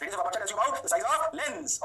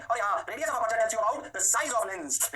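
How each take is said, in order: First: Slow dictation again. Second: Slow dictation. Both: Shown as a demonstration.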